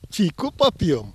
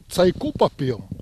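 First: The first word is said with an 'i' vowel. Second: The first word starts with a 'ts' sound. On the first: This is how people in a third village spoke, with some flair. "с некоторым шиком говорили через «и»" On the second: This is how people in another village spoke. "А другой деревне через «ц»"

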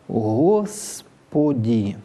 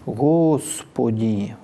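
First: The s sound is made with unrounded lips. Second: The s sound is made with rounded lips. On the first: "А может быть и не огубленным" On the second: "когда на «с» тоже губы вперед"

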